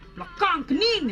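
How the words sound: It is a stiff KL attempt at Kedah accent.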